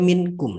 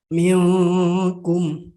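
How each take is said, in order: First: The n sound is pronounced clearly. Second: The n sound is faint and nasal. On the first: This is how it is said in everyday speech. "dalam kata-kata sehari-hari dia minkum dibaca" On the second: This is how it is recited in the Quran. "huruf kaf adalah huruf ikhfa, maka dibaca minkum"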